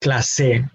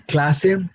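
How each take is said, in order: First: "clase" stressed on the last syllable, cla-SE; "clase" mis-stressed as clasé; wrong final stress. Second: "clase" stressed on the first syllable, CLA-se; "clase" with strong cla, light se; correct penultimate stress. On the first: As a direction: push the stress onto se in "clase". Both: Shown as a demonstration. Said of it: "difference in where we put our emphasis".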